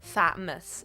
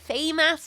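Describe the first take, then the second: First: The first syllable sounds like 'fat'. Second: The first syllable sounds like 'fay'. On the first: The speaker calls it right. "but it is fat" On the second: The speaker calls it wrong. "I sometimes say Fay, Fay, Famous myself"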